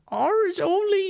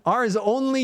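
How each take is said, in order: First: It is said in a put-on old man voice. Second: It is said in the speaker's normal voice. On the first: "I'm going to get on my best old man voice" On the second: "No, I'm not doing that"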